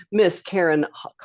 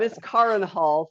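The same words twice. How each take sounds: First: "Karen" slipped into the common CARE-en; mispronounced name. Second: "Karin" said KAH-rin with open "ah"; corrected name pronunciation. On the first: Host botching guest's name in introduction, "Karen" as CARE-en. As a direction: say "Karen" with "air" in the first syllable. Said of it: "I already did it". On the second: Host restarting guest's introduction, "Karin" correctly with "ah". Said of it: "I already did it one time". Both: Real, not acted.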